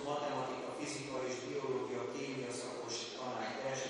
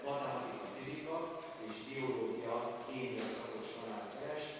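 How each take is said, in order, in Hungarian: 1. A tantárgynevek szünet nélkül folynak egybe. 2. A tantárgynevek világos szünetekkel vannak elválasztva.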